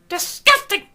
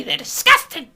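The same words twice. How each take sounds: First: Even higher, loud shrieked "disgusting."; mock outrage. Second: High, loud scandalised cry; mock outrage. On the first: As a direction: top the first take, shriller prude. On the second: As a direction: fake shocked prude.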